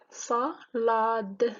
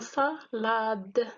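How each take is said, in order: First: SALADE broken up as "sa - la - de"; split into syllables. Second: Said in the usual way. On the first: Shown as a demonstration. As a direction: say salade in separate beats, "sa, la, de". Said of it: "c'est trois syllabes". (salade découpé en syllabes, « sa - la - de ») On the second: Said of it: "de découpage en syllabes".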